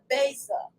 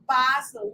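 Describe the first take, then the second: First: "basil" said as BAY-sil; "basil" with a long A in the first syllable; long-A pronunciation. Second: "basil" said as BAH-zil; "basil" with a broad A in the first syllable; broad-A pronunciation. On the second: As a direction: say "basil" with an open "ah". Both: Shown as a demonstration. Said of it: "depends on what you call it".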